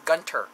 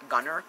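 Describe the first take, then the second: First: A clear T sound follows the N. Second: No T sound follows the N. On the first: The speaker calls it right. "I think it's Gunter. Like T's, not B's" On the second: The speaker calls it wrong. "Like not Gunner"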